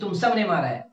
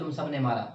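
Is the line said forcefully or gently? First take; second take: forcefully; gently. First: It is said forcefully, with strong emphasis. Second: It is said gently, with affection.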